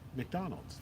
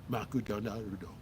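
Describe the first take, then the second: First: It is said with a native English accent. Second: It is said with a Japanese katakana accent.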